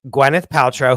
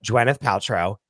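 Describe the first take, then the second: First: Said in the usual way. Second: "Gwyneth" starting with a J sound, in a lower, softer aside; nickname pronunciation. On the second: Shown as a demonstration. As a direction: say "Gwyneth" as "Jwyneth", dropping pitch. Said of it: "who we call Gwyneth, as you know".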